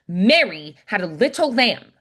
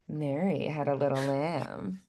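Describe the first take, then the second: First: It sounds demanding. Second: It sounds flirting.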